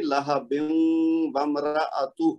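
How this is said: It runs on, the nasal ending merging into w. "हम यहाँ पे ना रुकें ... मिला के"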